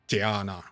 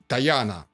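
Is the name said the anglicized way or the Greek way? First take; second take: Greek; anglicized. First: The name is said closer to the Greek way. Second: The name is said the anglicized way.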